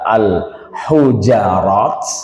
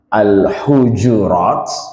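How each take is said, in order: First: An a vowel follows the j sound. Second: An u vowel follows the j sound.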